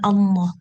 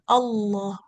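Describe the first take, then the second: First: The sound resonates through the nose, nasal. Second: The sound resonates inside the mouth, not nasal. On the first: The speaker calls it wrong. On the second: The speaker calls it right. "Bunyinya di dalam mulut sini"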